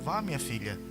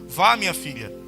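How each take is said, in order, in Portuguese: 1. Ele é dito imitando a voz de outra mulher. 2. Ele é lido com a voz natural do próprio leitor.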